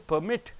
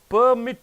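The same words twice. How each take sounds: First: The stress is on the last syllable. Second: The stress is on the first syllable. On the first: It is used as a verb. "last syllable if you stress" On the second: It is used as a noun. "first syllable if you stress"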